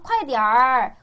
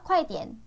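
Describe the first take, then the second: First: The final syllable ends with an r-colored sound. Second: The final syllable ends plainly without r-coloring. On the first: "여기 전부 다 얼화 붙일 수 있어요" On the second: "그냥 좀 담백하게 발음할게요"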